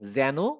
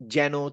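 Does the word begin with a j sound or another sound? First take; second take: other sound; j sound. First: It begins with a sound unlike the j sound. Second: It begins with the same j sound as jamal. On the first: The speaker calls it right. "যেনর উচ্চারণ উচ- উচিত ছিল যেন বলা" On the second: The speaker calls it wrong. "যেন আর জামাল একই উচ্চারণ করলাম না?"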